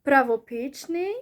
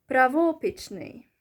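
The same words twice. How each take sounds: First: "Правопічний" with weight on ПІЧ, rising at the end; stress on the I. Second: "правопічний" with ВО punched, falling after; stress on the O. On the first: Teacher recaps both options for learners, stress on the I. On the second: Teacher recaps the other option, stress on the O. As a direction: hit the O in "правопічний". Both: Shown as a demonstration. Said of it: "the O syllable or the E one".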